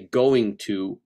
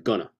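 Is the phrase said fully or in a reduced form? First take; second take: full; reduced. First: Both words are said fully and separately. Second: The words are run together as 'gonna'. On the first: The speaker calls it right. "that would be correct enunciation" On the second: The speaker calls it wrong. "rather than gonna"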